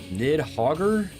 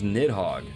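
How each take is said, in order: First: The name ends with an extra 'er' syllable. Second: The name ends without any extra syllable. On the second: "Or is it just Nidhogg?"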